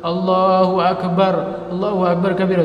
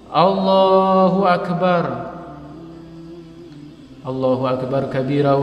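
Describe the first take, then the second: First: The phrases run together with no pause. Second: A short pause separates the two phrases. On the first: The speaker calls it wrong. "jangan langsung ... jangan gitu" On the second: The speaker calls it right. "Ini namanya diam antara takbiratul ihram dengan doa iftitah"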